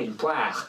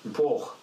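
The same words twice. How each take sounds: First: The vowel is open, nearly like an E. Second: The vowel sounds almost like an O. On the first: The speaker comes from the Geneva area. "le A devient ouvert, voire à la limite du E" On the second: The speaker is a winegrower's son. "c'est presque un O"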